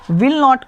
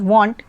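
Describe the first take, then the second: First: It is said as two full words. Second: It is said as one contracted word. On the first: "विल नॉट को" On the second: "वॉन्ट पढ़ते हैं contraction करने के बाद"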